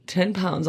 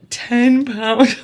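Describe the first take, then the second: First: Said in the usual way. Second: "Ten pounds" repeated louder and higher, TEN punched; stress on TEN. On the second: Shown as a demonstration. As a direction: hit "Ten" hard in disbelief.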